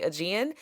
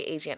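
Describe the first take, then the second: First: Aegean said uh-JEE-an, with a hard j; other people's way. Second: Aegean said ay-ZHEE-an, soft zh in the middle; her own African way. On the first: Coach showing how a lot of people say Aegean. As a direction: Aegean with a light uh opening and a j sound. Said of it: "I know a lot of people say Aegean". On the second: Coach showing how she, as an African, says Aegean. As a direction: Aegean with a long ay opening and a zh sound. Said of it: "I'm African, that's the way we say it". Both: Shown as a demonstration.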